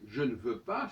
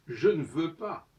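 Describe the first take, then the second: First: Said in the usual way. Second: Je ne veux pas, slow and louder, every syllable said; full careful form. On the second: Shown as a demonstration. Teacher showing the full written form, Je ne veux pas said slowly. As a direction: spell out Je ne veux pas with the ne kept clear. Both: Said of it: "si on devait traduire".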